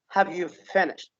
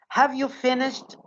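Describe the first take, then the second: First: The final t is weak and joined. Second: The final t is strong and separate. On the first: The speaker calls it right. "as if the sh and te are connected together" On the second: The speaker calls it wrong. "No, this is not correct"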